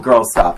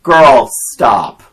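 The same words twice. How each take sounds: First: Milder repeat of a yell at the screen; half-strength scolding shout; retold yell. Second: Loud, scolding yell at the TV; re-enacted shout at a movie character; retold yell. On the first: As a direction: quote your own yell, a bit louder. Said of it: "I yelled". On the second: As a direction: yell it at the screen in exasperation. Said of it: "I yelled at the T V".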